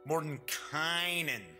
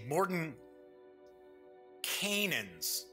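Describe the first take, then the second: First: The ending sounds like kay-nen. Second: The ending sounds like the word Canaan. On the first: "everybody is pronouncing it Mordenkainen" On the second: "it looks like it would be pronounced Canaan"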